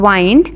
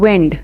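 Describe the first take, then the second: First: The vowel sounds like 'eye'. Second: The vowel sounds like 'ih'. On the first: To finish. "वाइंड means to finish" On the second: Moving air. "विंड means air"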